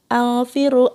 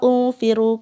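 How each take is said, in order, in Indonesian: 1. Kata ini diawali dengan vokal a. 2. Kata ini diawali dengan vokal u. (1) "malah alfiru" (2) "atau ulfiru"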